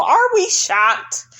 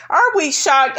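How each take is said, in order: First: Mock shock, much higher and slow; sarcastic. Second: Said in the usual way. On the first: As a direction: act falsely surprised.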